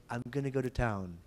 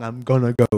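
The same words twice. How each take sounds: First: "I'm gonna go to town" said softer, with "gonna" kept light; the correct weak version; sweet gonna. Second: "I'm gonna go" said with "gonna" made louder and stressed; the wrong, heavy version; strong gonna. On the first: Teacher demonstrates the light, sweet "gonna". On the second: Teacher demonstrates the horrible stressed "gonna". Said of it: "If you make it strong". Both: Shown as a demonstration.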